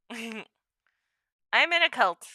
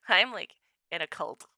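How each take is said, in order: First: "I'm in a cult" very slow through a laugh; slow laughing admission. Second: Said in the usual way. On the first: Real, not acted.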